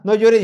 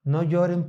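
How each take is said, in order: First: A father's sharp, louder "No lloren"; scolding "No lloren", louder and sharp. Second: A softer, comforting "No lloren"; gentle comfort. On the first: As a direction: snap "No lloren" at the kids like a scolding dad. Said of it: "¿Los ha regañado su papá?". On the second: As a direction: ease them with a soft "No lloren". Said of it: "Con estas palabras". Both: Acted.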